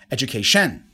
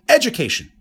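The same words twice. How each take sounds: First: The stress falls on the fourth syllable. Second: The stress falls on the first syllable. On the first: "And number four" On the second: "In the first case, I put the stress on the first syllable"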